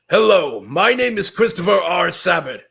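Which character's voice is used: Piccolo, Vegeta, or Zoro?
Vegeta. It is said in Vegeta's voice.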